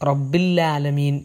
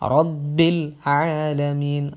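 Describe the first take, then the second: First: It runs together, the ain sound blurred. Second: The ain sound is clearly articulated. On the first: The speaker calls it wrong. "പലരും റബ്ബിൽ ആലമീൻ എന്ന് ഒറ്റ ഒഴുക്കിൽ പോകാറുണ്ട്" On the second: The speaker calls it right. "റബ്ബിൽ കഴിഞ്ഞിട്ട് ഐൻ വളരെ വ്യക്തമായിട്ട് ഓതാൻ ശ്രമിക്കുക"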